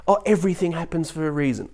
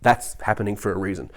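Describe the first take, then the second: First: Higher mocking quote of an optimist; airy mimicry of empty comfort; mock platitude. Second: Said in the usual way. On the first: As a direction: parrot a platitude in a raised pitch.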